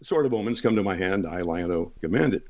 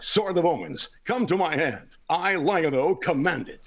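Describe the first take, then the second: First: It is spoken in a relaxed, conversational way. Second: It is spoken in a bold, dramatic, energetic way. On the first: "As I'm sitting here talking to you guys" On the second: "But on television"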